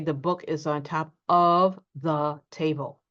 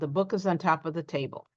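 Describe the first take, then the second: First: Each word is said separately, with 'of' fully pronounced. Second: The words run together, with 'of' reduced. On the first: The speaker calls it wrong. "So we don't usually say" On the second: The speaker calls it right. "We run it all together. We reduce the of"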